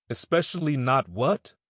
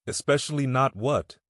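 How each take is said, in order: First: "Especially not what?" with every word given weight, a rise on "Especially"; each word emphasized. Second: A mild, pressing demand. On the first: Ro repeats his question to Vi, stressing each word. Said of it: "emphasizing each word". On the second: Ro presses Vi for what she left unsaid, mild demand. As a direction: push her for the answer, mildly insistent. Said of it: "he demanded". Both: A narrator's reading.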